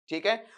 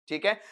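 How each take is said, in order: The two takes are said the same way.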